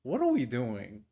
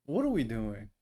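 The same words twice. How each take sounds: The two takes are said the same way.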